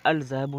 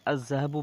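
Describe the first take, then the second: First: अल ज़हबु with the L clearly sounded, al-zahabu; deliberately wrong al-zahabu; wrong lam reading. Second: अज़्ज़हबु with a doubled z and no lam, az-zahabu; correct sun-letter reading. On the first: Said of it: "अल ज़हबु नहीं पढ़ते हैं". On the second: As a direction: say अज़्ज़हबु without any L. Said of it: "अज़्ज़हबु पढ़ते हैं". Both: Shown as a demonstration.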